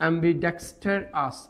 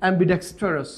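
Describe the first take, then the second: First: Ambidextrous slowly, in separated syllables; broken up. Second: Said in the usual way. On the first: Shown as a demonstration. Teacher showing a hard word, slowly broken up. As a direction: pause between am-bi, dex, ter and ous in ambidextrous. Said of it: "ভেঙে ভেঙে যদি উচ্চারণ". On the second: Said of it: "উচ্চারণ হচ্ছে এরকম".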